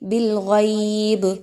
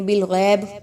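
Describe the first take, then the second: First: The vowel glides softly as a leen diphthong. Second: The vowel is a plain long majhool vowel. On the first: The speaker calls it right. "अच्छे से लीन की अदायगी रखिए" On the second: The speaker calls it wrong. "इसको लोग पढ़ते हैं बिलगैब। ठीक है, मजहूल नहीं करना"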